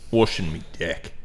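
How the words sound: It is said in a gruff Australian accent.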